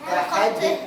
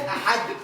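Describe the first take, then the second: First: The final d is released with a slight echo. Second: The final d is held still with no echo. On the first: The speaker calls it right. "حركتها" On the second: The speaker calls it wrong. "وقف اهو ساكن"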